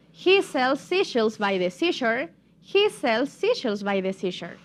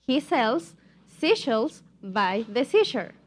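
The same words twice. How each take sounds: First: Tongue twister joined up, slightly quicker; a bit faster. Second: Slow tongue twister in separate chunks; slow demonstration. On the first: Teacher says it one more time, a bit faster. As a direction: run the phrases together without gaps. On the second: Teacher models for students to repeat, slowly. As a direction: space out each phrase for repetition. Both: Shown as a demonstration. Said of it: "pero un poco más rápido".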